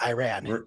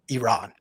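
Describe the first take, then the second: First: The word is said with a Southern accent. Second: The word is said without a Southern accent. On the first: The speaker calls it wrong. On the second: The speaker calls it right.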